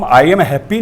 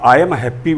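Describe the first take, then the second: First: "I am happy" with I and am split apart; separate I am. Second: "I am happy" with I am glided together as one sound; joined I am. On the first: Teacher showing students the wrong way, separated words. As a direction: say "I am happy" with a break between I and am. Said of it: "नहीं कह करके". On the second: Teacher showing students the right way, linked I am. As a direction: run "I am" into one syllable in "I am happy". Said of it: "बोलेंगे". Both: Shown as a demonstration.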